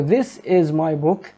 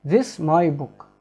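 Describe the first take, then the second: First: Slow, word by word; slow model sentence. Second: "This my book" slow, with no "is"; slow reduced sentence. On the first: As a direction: read the model slowly for learners. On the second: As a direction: drop the is and read it slowly. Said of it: "We can translate it, it's like". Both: Shown as a demonstration.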